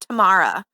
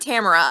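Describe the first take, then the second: First: The name sounds like the word tomorrow. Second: The name does not sound like tomorrow. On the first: The speaker calls it wrong. "I can't say her name like that, ... it sounds like a, like an old prospector saying tomorrow" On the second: The speaker calls it right. "I prefer Tamara"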